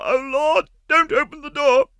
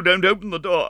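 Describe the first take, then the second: First: Higher, louder panicked begging; desperate plea. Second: High, anxious plea; pleading. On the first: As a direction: plead in rising panic. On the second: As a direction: beg her not to open it. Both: A narrator's reading. Meg begs Sorelli.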